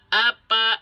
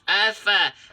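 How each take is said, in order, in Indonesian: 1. Konsonan tengahnya p, dengan kedua bibir tertutup. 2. Konsonan tengahnya f, dengan napas keluar. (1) "jangan sampai dibaca apa" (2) "Tapi afa. Keluar nafas"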